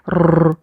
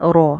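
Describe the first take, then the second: First: The r is trilled with many repeated taps. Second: The r is trilled only slightly, held one beat. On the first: The speaker calls it wrong. "ज़रूरत से ज़्यादा तकरार के जैसे रो रो ऐसे करके रो, ये साउंड ना नहीं चाहिए" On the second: The speaker calls it right. "इसको एक अलिफ पढ़ना है"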